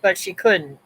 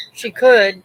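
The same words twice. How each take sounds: First: Said in the usual way. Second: Could said loud and firm; stress on could. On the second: Real, not acted. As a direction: lean hard on could. Contrast she could but couldn't.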